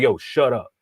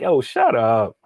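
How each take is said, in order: First: It is said in a harsh, aggressive tone. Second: It is said in a light, joking tone.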